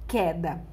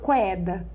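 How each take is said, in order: First: No u sound follows the initial k. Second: A u sound follows the initial k. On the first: The speaker calls it right. "eu falo queda" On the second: The speaker calls it wrong. "eu falo queda? Não"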